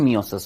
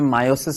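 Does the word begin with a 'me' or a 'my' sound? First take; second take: me; my. First: The first syllable sounds like 'me'. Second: The first syllable sounds like 'my'. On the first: "normal हम Indian English में क्या बोलते हैं, मियोसिस बोलते हैं" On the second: "British language में मायोसिस बोल देते हैं"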